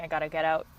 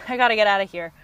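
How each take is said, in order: First: Said in the usual way. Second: Louder and faster, with a laugh; laughing escape. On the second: Retold or imitated. Overwhelmed partner wants to escape the argument, laughing and louder. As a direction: blurt it out through a laugh like you're bolting.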